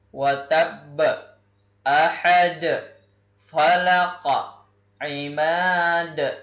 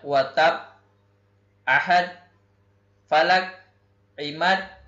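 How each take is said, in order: First: The stopped consonants are released with a bounce. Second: The stopped consonants are cut off flat. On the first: The speaker calls it right. "harus terpantul suara" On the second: The speaker calls it wrong. "jadi tidak boleh dibaca"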